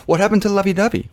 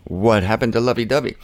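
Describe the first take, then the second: First: Mock plaintive. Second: Said in the usual way. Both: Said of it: "That's, that's the".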